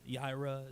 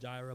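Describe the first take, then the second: First: The word begins with a Y sound. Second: The word begins with a J sound. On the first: "Yireh is probably the better pronunciation" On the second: "It says Jehovah Jireh"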